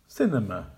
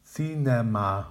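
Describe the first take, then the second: First: "Cinema" as SIN-uh-muh, first syllable strong, rest weak; correct with schwas. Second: "Cinema" as SI-NE-MA with even full vowels; incorrect full vowels. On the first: Teacher modelling the correct "Cinema" for practice. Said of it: "Make the weak syllables quiet and the strong syllables loud". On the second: Teacher modelling the wrong "Cinema" to avoid. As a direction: give "Cinema" three equal full vowels. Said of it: "the incorrect pronunciation, which is without schwa sounds or stress". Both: Shown as a demonstration.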